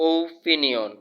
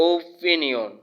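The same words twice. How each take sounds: Both takes have the same delivery.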